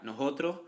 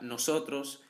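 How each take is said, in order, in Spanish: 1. La s del medio es un sonido h. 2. La s del medio es una s clara. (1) "conversión de S en H" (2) "la palabra nosotros"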